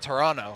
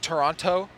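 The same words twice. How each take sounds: First: The second T is dropped. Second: The second T is clearly pronounced. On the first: The speaker calls it right. "don't say the the second T" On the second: The speaker calls it wrong. "I still say Toronto"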